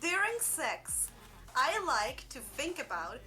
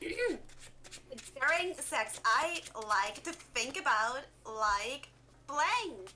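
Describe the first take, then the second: First: It is read in the speaker's normal voice. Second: It is read in a Valley Girl accent.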